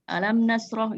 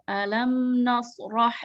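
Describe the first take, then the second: First: The m sound is cut off quickly. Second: The m sound is held and flows slightly. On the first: The speaker calls it wrong. "Mimnya itu jangan langsung alam nasrah gitu, jangan gitu" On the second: The speaker calls it right. "Jadi ada sedikit tahanan. Dikit aja, aliran juga"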